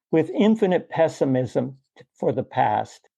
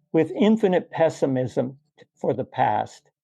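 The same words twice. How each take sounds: No difference in how they are said.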